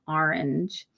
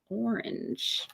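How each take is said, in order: First: The first vowel sounds like 'ar'. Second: The first vowel sounds like 'or'.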